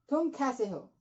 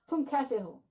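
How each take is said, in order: The two takes are said the same way.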